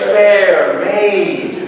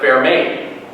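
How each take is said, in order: First: The vowels are drawn out long. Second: The vowels are kept short and plain. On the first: "make the vowels longer" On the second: "Instead of"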